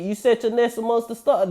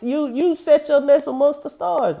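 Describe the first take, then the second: First: Said in the usual way. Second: Higher repeat, pressed harder; preacher's rising repeat; emphatic repeat. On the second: Shown as a demonstration. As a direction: lift the line and drive it home.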